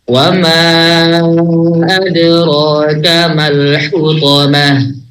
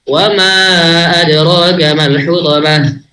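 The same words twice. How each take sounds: First: It is recited at a slow tempo. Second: It is recited at a fast tempo. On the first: "dengan tempo tahqiq" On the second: "Apalagi yang hadar lebih cepat lagi"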